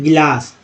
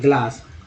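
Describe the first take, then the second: First: An extra vowel splits the g and l. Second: The g and l are said together. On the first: This is the everyday spoken form. "जैसे बोलते हैं गिलास" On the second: This is the standard written form. "ग्लास शुद्ध होता है"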